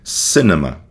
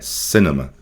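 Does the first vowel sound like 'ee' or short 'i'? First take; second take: short i; short i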